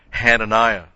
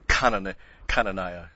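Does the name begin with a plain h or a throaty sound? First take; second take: plain h; throaty. First: The name begins with a plain, soft h sound. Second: The name begins with a harsh, throaty, coughing sound. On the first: The speaker calls it wrong. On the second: The speaker calls it right.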